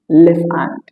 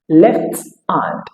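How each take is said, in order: First: The T sound is held, not released. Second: The T sound is fully released.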